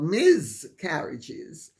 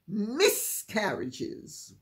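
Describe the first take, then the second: First: The first part sounds like miz with a buzz. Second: The first part sounds like a short hissed miss. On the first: The speaker calls it wrong. "definitely not Miz Carriages" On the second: The speaker calls it right. "I've had miscarriages"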